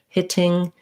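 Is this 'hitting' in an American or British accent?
British. It is said in a British accent. "In British English"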